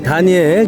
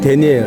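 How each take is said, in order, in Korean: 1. 첫 모음이 'ah'처럼 소리 나요. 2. 첫 모음이 'eh'처럼 소리 나요. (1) "우리는 한국 사람은 다니엘이 편하죠" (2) "그 영어 발음이 그러네"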